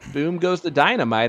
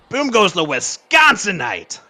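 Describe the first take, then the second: First: It is said in a plain voice. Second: It is said with a raspy growl.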